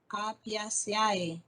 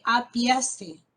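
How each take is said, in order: First: Apiaceae slow with every vowel sounded; wrong reading. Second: Apiace slow and loud, ending in e; correct reading. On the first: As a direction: say apiaceae letter by letter. (pronunciación incorrecta: apiaceae con a-e separadas) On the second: (pronunciación correcta: apiace lento y fuerte) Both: Shown as a demonstration. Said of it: "no digo".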